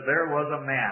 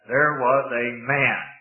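First: The phrase is read plainly without special emphasis. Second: The phrase is said with strong, deliberate emphasis.

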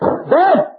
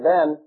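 First: The name is screamed loudly at high pitch. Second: The name is said calmly at normal volume. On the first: A final angry call demanding obedience. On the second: A first gentle call for attention.

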